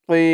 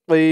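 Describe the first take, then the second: No difference in how they are said.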